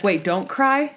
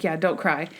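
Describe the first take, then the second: First: "don't cry" asked as a puzzled check; questioning. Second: "don't cry" lower, as a settled answer; confirming. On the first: Nervous Monk checking his instructions, questioning. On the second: Stottlemyre answering nervous Monk, confirming. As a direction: state "don't cry" as a matter-of-fact confirmation. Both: Retold or imitated.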